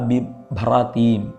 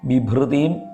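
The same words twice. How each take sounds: First: The second syllable is said with a plain ra. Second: The second syllable is said with a vocalic r. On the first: The speaker calls it right. "ബിഭ്രതീം എന്നാണ്" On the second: The speaker calls it wrong. "അത് ബിഭ്രതീം എന്നല്ല"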